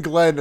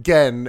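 First: Said in the usual way. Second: "Gen" with the L dropped; mispronounced name. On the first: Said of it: "starts saying Glenn". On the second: Retold or imitated. Showing the commentator's slip, "Gen" without its L. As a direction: say "Gen" for Glenn, no L. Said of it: "then he calls him Gen".

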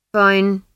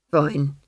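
First: Loud hurried first fine; emphatic fine. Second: Said in the usual way. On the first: Acted. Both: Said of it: "he said".

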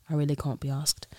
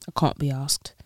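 First: Softer British "I really can't be asked", broad "can't"; British accent, softer. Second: Casual British "I can't be asked" with broad "can't"; British accent. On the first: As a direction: mutter it like a tired Londoner. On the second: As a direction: say it like a Londoner. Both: Shown as a demonstration. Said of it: "rate my British accent".

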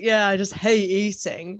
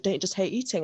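First: Slow, drawn-out sarcastic agreement; retold mock-earnest sarcasm. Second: Imitating him dead serious; understated, earnest question; retold deadpan. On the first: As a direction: pretend to agree, dragging the words out. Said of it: "I was sort of being all sarcastic". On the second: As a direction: say it straight, as if you truly mean it. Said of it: "he was dead, like, he looked me in the eye".

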